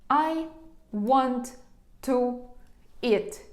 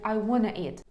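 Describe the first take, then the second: First: Each word is said separately with pauses between them. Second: 'Want to' is run together into 'wanna' without pauses. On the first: The speaker calls it wrong. "Я ж не говорю ось з такими паузами" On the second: The speaker calls it right. "щоб звучати природньо і скоріше носії скажуть I wanna eat"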